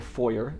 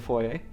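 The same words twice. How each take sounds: First: It uses the American pronunciation of the word. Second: It uses the speaker's usual non-American pronunciation.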